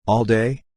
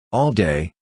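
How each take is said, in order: First: "All day" lifted into a rising question; doubting question. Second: "All day" settled at usual pitch as an answer; smiling confirmation. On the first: He doubts his happiness, "All day" as a hopeful rising question. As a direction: ask "All day" with the pitch climbing, unsure. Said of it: "doubting his happiness". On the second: She confirms it to him, "All day" as a smiling statement. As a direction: answer "All day" with a smile, no questioning lift. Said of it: "she smiled". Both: A narrator's reading.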